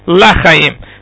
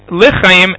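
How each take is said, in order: First: The first syllable has an 'ah' vowel. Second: The first syllable has an 'ee' vowel. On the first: It can sound like not for life. The speaker calls it wrong. "and not lachayim" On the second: Remember us for life. The speaker calls it right. "one should be careful to say zachreinu lichayim"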